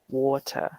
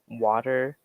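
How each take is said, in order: First: It is said in a British accent. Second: It is said in an American accent. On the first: "In the British way" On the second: "American way"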